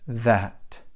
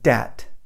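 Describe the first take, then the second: First: It begins with the tongue between the teeth. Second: It begins with a hard D sound. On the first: The speaker calls it right. "Tongue and teeth" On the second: The speaker calls it wrong. "they'll say dat"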